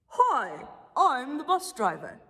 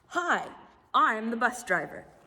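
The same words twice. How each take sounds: First: It is read in a put-on character voice. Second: It is read in her plain voice.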